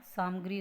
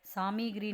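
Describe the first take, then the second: First: सामग्री said as "saamagri"; no "i" after m in सामग्री; correct pronunciation. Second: सामग्री said as "saamigri"; extra "i" after m in सामग्री; wrong pronunciation. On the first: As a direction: clear saam-gri for सामग्री. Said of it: "सामग्री होता है". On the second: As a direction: misread सामग्री as saa-mi-gri. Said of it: "सामग्री नहीं होता". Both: Shown as a demonstration.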